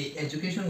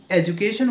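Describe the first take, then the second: First: এডুকেশন broken slowly into four separate syllables; split into syllables. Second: Said in the usual way. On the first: Shown as a demonstration. Teacher counting syllables for students, এডুকেশন slowly split syllable by syllable. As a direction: say এডুকেশন one syllable at a time, with gaps. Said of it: "পার্টগুলোকে একশ্বাসে যতটা". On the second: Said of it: "এই এডুকেশন ওয়ার্ডটার মধ্যে".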